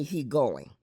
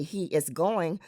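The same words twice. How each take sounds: First: He going, no is; AAL grammar. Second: Said in the usual way. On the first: Shown as a demonstration. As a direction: say He going plainly. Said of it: "we just may say". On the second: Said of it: "they would say".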